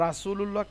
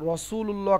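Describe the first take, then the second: First: রাসুলুল্লাহ starting with a light open "raa"; thin Ra. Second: রসুলুল্লাহ starting with a thick, rounded "raw"; heavy Ra. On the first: Teacher asks why not this, রাসুলুল্লাহ with thin Ra. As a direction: say রাসুলুল্লাহ with a flat, thin first vowel. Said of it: "কেন নয়". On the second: Teacher asks why it is heavy, রসুলুল্লাহ with rounded Ra. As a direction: open রসুলুল্লাহ on a full dark R. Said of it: "মোটা হয়". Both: Shown as a demonstration.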